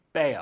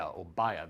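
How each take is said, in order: First: Bayer said like "bear", with an AIR vowel; Bayer as BAIR. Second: Bayer said like "buyer", with an EYE vowel. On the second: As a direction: open Bayer with the word "buy". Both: Shown as a demonstration. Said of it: "How do you pronounce that in America?".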